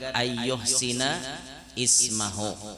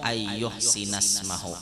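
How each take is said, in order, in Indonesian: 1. Kata terakhir dimulai terpisah dengan vokalnya sendiri. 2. Kata terakhir langsung tersambung dengan kata sebelumnya. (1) "hendak dipagat" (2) "boleh disambung"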